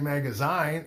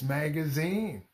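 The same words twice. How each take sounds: First: The last vowel sounds like 'eye'. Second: The last vowel sounds like 'ee'. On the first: The speaker calls it wrong. "it doesn't say magazine" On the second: The speaker calls it right. "it's magazine"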